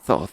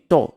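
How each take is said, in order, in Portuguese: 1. Começa com um som de th soprado. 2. Começa com um som parecido com t. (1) "coloca a língua entre os dentes... Vai soprando" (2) "Se não conseguir, fala assim"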